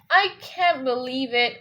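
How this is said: It sounds sad, stressing I then falling. The speaker is upset by the news. "what about if you're sad? ... you put more stress on I, and then you kind of go fall on the other words"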